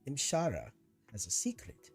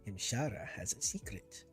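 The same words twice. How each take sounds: First: It is said in his normal voice. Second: It is said in a Khajiit impression.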